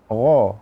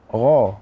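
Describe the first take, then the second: First: The gh sound is heavy and thick. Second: The same.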